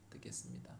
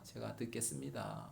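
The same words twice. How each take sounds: First: Breathy whisper of a prayer vow. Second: Said in the usual way. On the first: Shown as a demonstration. Preacher re-enacting his prayer to God, whispering. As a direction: drop to a whisper and repeat it softly.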